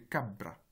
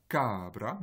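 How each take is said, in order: First: Cabra with a held b: ca-bbra; long consonant demo. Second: Cabra with a long a: caabra; wrong pronunciation demo. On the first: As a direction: hold the b in cabra. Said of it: "avec un allongement de la consonne qui suit". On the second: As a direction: stretch the first a of cabra. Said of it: "ce n'est pas cabra". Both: Shown as a demonstration.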